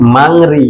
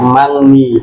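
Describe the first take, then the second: First: The second syllable begins with an r sound. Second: The second syllable begins with an n sound. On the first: The speaker calls it wrong. "এটা উচ্চারণ হবে না" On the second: The speaker calls it right. "হবে মাংনি"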